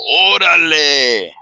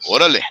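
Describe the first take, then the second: First: It sounds impressed and pleased. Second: It sounds urging and encouraging. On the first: Something is cool. "if it's a good thing, you go orale, like oh man, that's cool" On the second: Let's go. "That means let's go"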